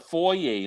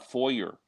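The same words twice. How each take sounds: First: It uses the non-American pronunciation of foyer. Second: It uses the American pronunciation of foyer. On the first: The speaker calls it right. "it's a foyer" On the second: The speaker calls it wrong. "not a foyer"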